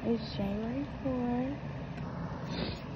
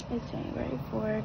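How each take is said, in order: First: Slow drawn-out. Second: Said in the usual way. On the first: Pretend. Repeats date, first take drawn out.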